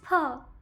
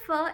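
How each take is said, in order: First: The word starts with an aspirated p sound. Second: The word starts with an English f sound. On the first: The speaker calls it right. "it's fur" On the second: The speaker calls it wrong. "It's not fur"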